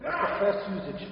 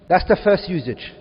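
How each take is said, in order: First: Said in the usual way. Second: "That's the first usage" said again, much louder and firmer; emphatic repeat. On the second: Shown as a demonstration. Teacher repeating the point louder to the class. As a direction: drive the point home, louder. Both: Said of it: "Are we all together?".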